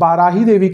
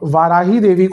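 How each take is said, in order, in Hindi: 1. नाम की शुरुआत b ध्वनि से होती है। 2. नाम की शुरुआत v ध्वनि से होती है।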